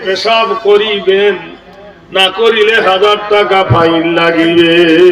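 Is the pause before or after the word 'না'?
before. The pause comes before the word 'না'.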